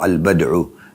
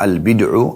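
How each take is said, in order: First: The vowel after b is an a sound. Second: The vowel after b is an i sound. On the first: "boleh juga di fathah" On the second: "ba dibaca kasrah"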